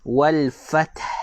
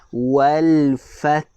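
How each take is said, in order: First: It is said at normal speed. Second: It is said slowly and drawn out.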